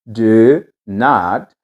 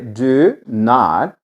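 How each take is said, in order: Both takes have the same delivery.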